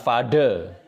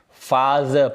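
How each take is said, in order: First: The middle consonant is a hard 'd' sound. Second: The middle consonant is a soft 'th' sound. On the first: The speaker calls it wrong. "bukan father" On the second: The speaker calls it right.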